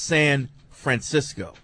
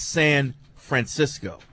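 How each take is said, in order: First: A slight pause falls between San and Francisco. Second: The same.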